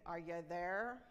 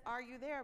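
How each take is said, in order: First: "Are you there?" as a stern demand, there pressed down hard; commanding boss. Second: Said in the usual way. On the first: Shown as a demonstration. Boss checking on a worker, said as a stern command. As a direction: bark it like an impatient order. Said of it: "we put that command on the end". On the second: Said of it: "There was no inflection".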